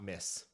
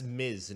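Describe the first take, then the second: First: The word ends with a hissing s sound. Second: The word ends with a buzzing z sound. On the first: The speaker calls it wrong. "not Miss" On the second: The speaker calls it right. "That's Miz"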